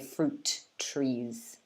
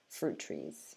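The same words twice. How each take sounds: First: Both T sounds are pronounced separately. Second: The two T sounds merge into one.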